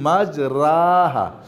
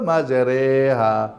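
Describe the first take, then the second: First: The vowel after r is a plain open a. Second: The vowel after r is bent toward e. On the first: "আসল উচ্চারণ কি মাজরাহা" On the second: "ইমালা মানে একটু বাঁকা করে পড়া"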